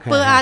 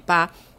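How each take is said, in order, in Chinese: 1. 声母和韵母是分开说的两个音。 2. 声母和韵母连成一个音节。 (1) "啵啊就是吧" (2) "念快一点啊"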